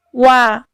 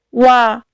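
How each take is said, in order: No difference in how they are said.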